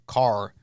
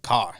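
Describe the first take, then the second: First: The r sound at the end is pronounced. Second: The r sound at the end is dropped. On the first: This is how most people say it. "most people say car" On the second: This is how someone with a Boston accent says it. "I would say more like car"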